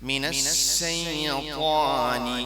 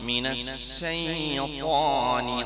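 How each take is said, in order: No difference in how they are said.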